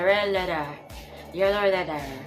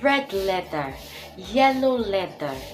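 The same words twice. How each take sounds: First: The words are mumbled and poorly articulated. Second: The words are articulated clearly and crisply. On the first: The speaker calls it wrong. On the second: The speaker calls it right.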